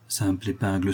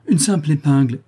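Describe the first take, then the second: First: Said in the usual way. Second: Raised, louder exclamation. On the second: A narrator's reading. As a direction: exclaim it as a sudden discovery. (s'écrier, plus haut et plus fort) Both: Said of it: "s'écrièrent-ils en même temps".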